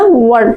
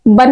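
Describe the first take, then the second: First: वन with a rounded w, never a b; rounded-w ONE. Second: Said in the usual way. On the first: Shown as a demonstration. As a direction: say वन as "wuan", lips rounded. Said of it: "हमको पढ़ना वन". (वन को "बन" नहीं, गोल "वॉन" बोलें) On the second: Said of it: "वन नहीं पढ़ना".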